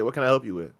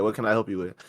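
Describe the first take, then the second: First: Low, soft, even clerk's reply; calm service voice. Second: Soft, even, unbothered clerk voice; calm service voice. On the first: Store clerk calmly answers a rude customer, soft and even. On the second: Clerk repeats his calm greeting to a rude shopper, soft and even. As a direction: stay calm and polite, no bite. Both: Shown as a demonstration.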